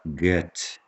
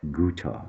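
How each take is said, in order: First: The name is said with a Brazilian Portuguese pronunciation. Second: The name is said with a German pronunciation. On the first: This is how people say it in Brazil. "Aqui no Brasil a gente fala Goethe" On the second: This is how people say it in Germany. "mas na Alemanha é Goethe"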